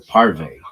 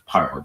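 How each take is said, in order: First: The word ends with an extra vowel sound. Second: The word ends on the consonant sound. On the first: This is how the spelling suggests it is said. The speaker calls it wrong. "looks like it should be parve" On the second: This is how it is actually said. The speaker calls it right. "but it's parv"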